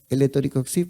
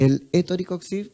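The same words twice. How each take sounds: First: The name is said at normal conversational speed. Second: The name is said slowly and carefully.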